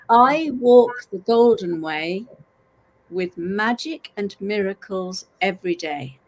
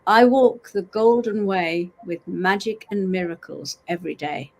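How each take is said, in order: First: It is said slowly and deliberately. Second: It is said at a normal pace.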